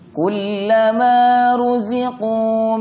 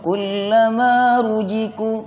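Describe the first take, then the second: First: The middle consonant sounds like a z. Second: The middle consonant sounds like a j. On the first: The speaker calls it right. "Yang benar z" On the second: The speaker calls it wrong. "za dibaca seperti jim"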